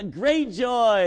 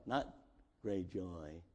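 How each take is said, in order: First: Great joy shouted out loud, high and slow; excited. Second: Great joy said low and soft, almost swallowed; muted joy. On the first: Showing the church real joy, loud and drawn out. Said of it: "It's like, get excited about what God has done". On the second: Mocking a timid church, great joy muttered quietly. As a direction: murmur great joy as if it were nothing special. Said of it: "No, no, no, no". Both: Shown as a demonstration.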